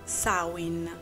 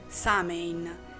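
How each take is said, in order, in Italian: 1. La parola si pronuncia nel modo originale irlandese. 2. La parola si pronuncia nel modo comune e familiare. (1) "in realtà la pronuncia corretta è Samhain" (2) "Tutti noi la conosciamo come Samhain"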